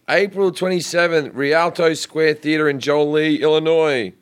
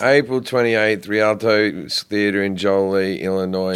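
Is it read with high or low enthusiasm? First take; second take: high; low. First: It is read with high enthusiasm. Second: It is read with low enthusiasm.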